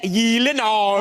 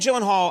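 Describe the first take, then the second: First: The name is said with a Swedish pronunciation. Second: The name is said with an English pronunciation. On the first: "It is a Swedish name, is it not? ... shouldn't it be like" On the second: "I never know if I'm pronouncing it correctly"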